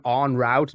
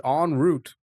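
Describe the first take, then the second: First: En route with route like "out"; wrong pronunciation. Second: En route with route like "root"; corrected pronunciation. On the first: Streamer giving the wrong version, en route as "on rout". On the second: Streamer correcting the word, en route as "on root". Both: Shown as a demonstration. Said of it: "No, it's en route".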